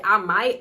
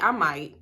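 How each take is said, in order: First: Said in the usual way. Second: Low, flat-toned I might; cold deadpan. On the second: Shown as a demonstration. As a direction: say I might coldly, meaning it. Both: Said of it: "That's exactly how I said it".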